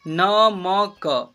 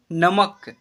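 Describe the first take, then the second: First: "नमक" slowly as न, म, क, each vowel held; letter by letter. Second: Said in the usual way. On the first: Shown as a demonstration. Teacher showing beginners how to read "नमक", letter by letter. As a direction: spell out "नमक" in separate drawn-out syllables. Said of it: "इसे क्या पढ़ेंगे?". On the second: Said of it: "नमक ऐसे पढ़ेंगे".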